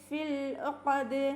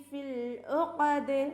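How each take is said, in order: Both takes have the same delivery.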